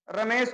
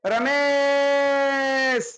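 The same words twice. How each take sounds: First: Said in the usual way. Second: Ramesh called out with the last vowel stretched long and slow; calling from afar. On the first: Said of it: "तो हम कहेंगे Ramesh". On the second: Shown as a demonstration. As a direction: call Ramesh across a distance, holding the final vowel. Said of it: "अंतिम अक्षर पर ज्यादा जोर देते हैं". (दूर से पुकारते हुए, रमेश का अंतिम स्वर लंबा खींचकर)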